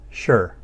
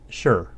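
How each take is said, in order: First: The word is said with a falling tone. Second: The same.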